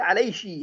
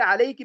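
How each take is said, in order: First: The word ends with a sh sound. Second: The word ends with a k sound.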